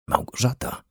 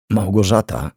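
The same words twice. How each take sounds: First: Breathy, unvoiced whisper of a name. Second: Voiced name left hanging; unfinished start. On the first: Man sees the girl standing in the kitchen, whispering. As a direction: whisper her name softly, barely voiced. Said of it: "szepnął". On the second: Man starts telling the twin about her sister, faltering. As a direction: begin to explain, then break off. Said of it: "zaczął, ale nie dokończył". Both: A narrator's reading.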